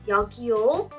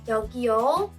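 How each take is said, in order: No difference in how they are said.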